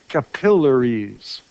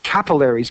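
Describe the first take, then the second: First: Slowly pronounced capillaries, "kuh-PILL-uh-reez"; teacherly, slow capillaries with second-syllable stress. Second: Capillaries stressed on the first syllable, "CAP-uh-lair-eez"; rejected pronunciation. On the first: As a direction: lean on PILL in capillaries, stretched out. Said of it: "stress goes on the syllable just before". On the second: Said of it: "not capillaries". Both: Shown as a demonstration.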